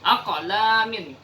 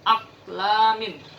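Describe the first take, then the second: First: The q sound is released with an echoing bounce. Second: The q sound is cut short without an echo. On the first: The speaker calls it right. "harus jelas bunyi qalqalahnya" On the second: The speaker calls it wrong. "Jadi bukan aqlamin"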